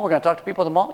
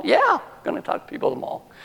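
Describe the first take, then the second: First: "mall" rising into a question; questioning echo. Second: Very high, quick comeback; insistent confirmation. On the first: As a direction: echo the plan as a doubtful question, lifting "mall". Acted doubtful companions query the plan. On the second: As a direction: squeak out the confirmation at a fast clip. Acted insistent answer to doubters. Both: Retold or imitated.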